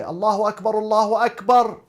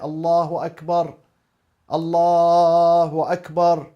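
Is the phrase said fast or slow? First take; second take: fast; slow. First: The phrase is said quickly, without dwelling. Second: The phrase is said slowly, pausing between parts. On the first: The caller is rushing. The speaker calls it wrong. "don't say it very speedy, in a speedy way" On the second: The caller takes his time. The speaker calls it right. "take your time... say it slow"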